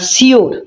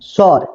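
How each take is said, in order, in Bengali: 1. শব্দটি দুই দলে উচ্চারিত হয়, shi-or। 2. শব্দটি এক দলে উচ্চারিত হয়, shor। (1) "এটা সঠিক উচ্চারণ নয়" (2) "এর সঠিক উচ্চারণ হচ্ছে স্বর"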